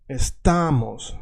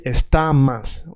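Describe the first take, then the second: First: Estamos slow, with a long stressed "ta"; stress on middle syllable. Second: Estamas with stressed "ta" and final o turned to a; Russian-style vowel reduction. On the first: Teacher showing Russian learners the accent, estamos with long "ta". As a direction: stretch the "ta" in estamos, keep the final o. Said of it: "the accent is here". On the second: Teacher showing what not to say, estamas with final a. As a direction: draw out estamas, ending on "mas". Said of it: "We don't say estamas". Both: Shown as a demonstration.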